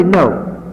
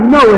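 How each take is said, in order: First: Said in the usual way. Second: "no" punched louder and held out; "no" thrown out to the room; stress on no. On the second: Acted. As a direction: hit "no" hard and loud. Stressing the word no.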